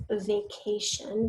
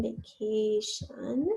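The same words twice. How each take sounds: First: Said in the usual way. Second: "vacation" very slowly, each syllable stretched; slow sounded-out "vacation", rising at the end. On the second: Shown as a demonstration. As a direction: draw out "vacation" for a speller. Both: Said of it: "start with that open vowel syllable".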